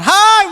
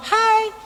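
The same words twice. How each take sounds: First: "Hai" called high and loud; shout. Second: Said in the usual way. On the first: Shown as a demonstration. Preacher showing how Batak call across valleys, loud "Hai". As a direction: yell "Hai" to someone far away. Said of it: "harus dengan teriakan". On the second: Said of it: "Sebab kalau ngomong".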